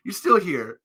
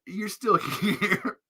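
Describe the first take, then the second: First: Said in the usual way. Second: Slow, giggling repeat; laughing. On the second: Real, not acted. Teasing viewers, slowed by laughter. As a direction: let the laugh break the phrase.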